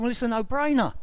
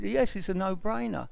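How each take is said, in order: First: Higher-pitched, amused retort; reply as if it's obviously funny; retold amusement. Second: Lightly imitated posh English accent; posh surgeon voice. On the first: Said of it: "I just really burst out laughing". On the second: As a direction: answer like a posh consultant, lightly mocked. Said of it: "in his posh voice".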